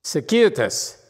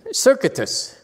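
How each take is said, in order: First: "circuitous" as sur-KYOO-it-us; corrected pronunciation. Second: "circuitous" as SUR-kit-us; mispronounced. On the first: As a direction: stress the KYOO in "circuitous", four syllables. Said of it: "the Google thing that has make sounds". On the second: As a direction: stress the first syllable of "circuitous", like "circuit" plus us. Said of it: "where is the emphasis of that word". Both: Shown as a demonstration.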